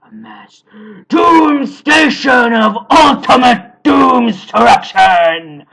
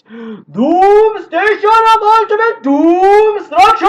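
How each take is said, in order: First: It is said in an epic Batman-like narrator voice. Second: It is said in the villain Chaos's voice.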